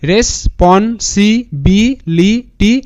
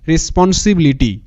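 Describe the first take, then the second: First: Very slow, a pause after each syllable. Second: Said in the usual way. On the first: Shown as a demonstration. Teacher models how students should pronounce it, syllable by syllable. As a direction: sound out responsibility one syllable at a time. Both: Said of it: "এরকম করে উচ্চারণটা করবে".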